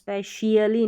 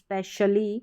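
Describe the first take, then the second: First: An extra 'ee' sound follows the 'sh'. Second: The 'sh' leads straight into 'ly'. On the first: The speaker calls it wrong. "स्पेशियली नहीं" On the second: The speaker calls it right. "श sound आ जाएगा"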